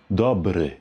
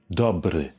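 Both takes have the same delivery.

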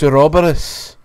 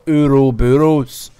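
First: It is pronounced a non-American way. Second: It is pronounced the American way. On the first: The speaker calls it right. "it's Ouroboros" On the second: The speaker calls it wrong. "Americans, shape up in your pronunciations. It's not Ouroboros"

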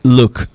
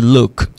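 Both takes have the same delivery.

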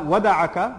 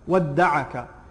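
First: The d sound is short and single. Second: The d sound is held long and doubled. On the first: The speaker calls it wrong. "not wada'aka" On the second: The speaker calls it right. "the shadd on, wadda'aka"

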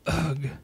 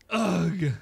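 First: It is said mildly, with little force. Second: It is said forcefully, with strong emphasis.

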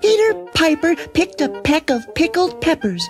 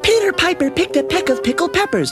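First: It is said at a normal speed. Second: It is said fast.

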